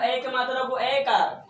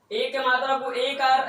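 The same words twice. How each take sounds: First: ऐकार said with an open ai glide; teacher contrasts ऐकार as a broad ai sound; ai vowel. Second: एकार said with a plain closed e; teacher models एकार with a clean e vowel; plain e sound. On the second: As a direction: say एकार with a short plain e, not ai. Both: Shown as a demonstration.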